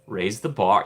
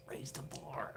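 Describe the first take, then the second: First: Said in the usual way. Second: Whisper. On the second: Shown as a demonstration. Vlogger hoping for a better ride, whispered. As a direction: raise the bar whispered, voiceless.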